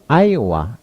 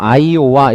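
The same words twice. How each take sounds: First: One syllable is clearly stressed. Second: The syllables are said evenly, with no stress. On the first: The speaker calls it right. "강세 넣어서 외우고" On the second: The speaker calls it wrong. "이러지 말고"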